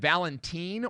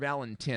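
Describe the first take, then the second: First: The last syllable sounds like teen. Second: The last syllable sounds like tin.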